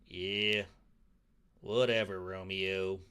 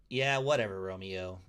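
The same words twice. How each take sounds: First: It is said in a put-on Western accent. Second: It is said in the reader's plain voice.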